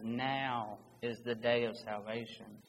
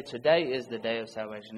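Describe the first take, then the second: First: NOW drawn out slowly, set apart from the rest; stress on NOW. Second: TODAY said briskly, without a pause after it; contrasted wording. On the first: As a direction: lean long on NOW, then finish lower. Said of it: "you cannot emphasize the urgency enough". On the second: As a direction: run TODAY straight into the rest of the phrase. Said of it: "it doesn't say". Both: Shown as a demonstration.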